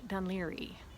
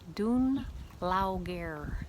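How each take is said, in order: First: The name is said smoothly as Dun-leary. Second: The name is sounded out as Dun-Lay-o-gair. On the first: The speaker calls it right. "and it's" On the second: The speaker calls it wrong. "she pronounces it something like"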